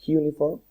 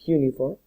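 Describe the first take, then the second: No difference in how they are said.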